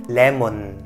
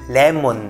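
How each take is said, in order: Both takes have the same delivery.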